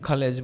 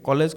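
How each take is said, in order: First: It starts with an aspirated kh sound. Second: It starts with a plain unaspirated k sound. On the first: This is how the British say it. "নহয় খালেজ বুলি ক'ব" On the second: This is the local way of saying it. "কলেজ কয় নেকি নকয়"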